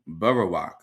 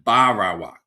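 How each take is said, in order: First: The first two vowels are short, the last long. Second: All three vowels have the same length. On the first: The speaker calls it right. "a very short ah and a very short ah there, and then a long ah at the end" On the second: The speaker calls it wrong. "when all the ah sounds are exactly the same length"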